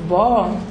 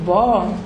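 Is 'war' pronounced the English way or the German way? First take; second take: English; English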